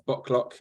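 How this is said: The name is said with an English pronunciation. "English people will call us Boklock"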